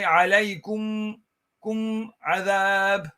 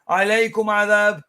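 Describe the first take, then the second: First: The final m carries a short nasal hum. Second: The final m has no nasal hum. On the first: The speaker calls it right. "there has to be a bit of gunna in there" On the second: The speaker calls it wrong. "you don't just say عليكم عذاب"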